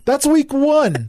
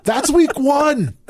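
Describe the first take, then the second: First: Slow, high, dry delivery; deadpan punchline again. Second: Slow, high, dry delivery; deadpan punchline. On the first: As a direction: repeat it slowly for effect. Repeated punchline. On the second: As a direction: land the punchline slowly. Punchline after poop story. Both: Real, not acted.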